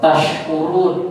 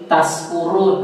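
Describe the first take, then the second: First: The middle consonant is an sh sound. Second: The middle consonant is an s sound. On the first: You are grateful. The speaker calls it right. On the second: You are drunk. The speaker calls it wrong. "kalau keliru dengan sin"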